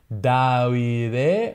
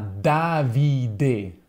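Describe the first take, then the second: First: The V is soft and weakly pronounced. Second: The V is strong and clearly pronounced. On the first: The speaker calls it wrong. "quindi non Davide" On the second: The speaker calls it right. "anche una V bella forte"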